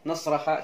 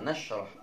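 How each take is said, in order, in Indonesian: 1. Kata ini berakhir dengan vokal 'a'. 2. Kata ini tidak berakhir dengan vokal. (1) "jangan dibaca" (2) "Ini dibaca sukun"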